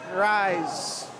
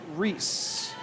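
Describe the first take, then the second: First: The vowel sounds like the word rise. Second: The vowel sounds like the name Reese. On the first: The speaker calls it wrong. "I've been saying it wrong" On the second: The speaker calls it right. "they're saying Reese"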